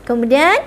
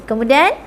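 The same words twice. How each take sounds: No difference in how they are said.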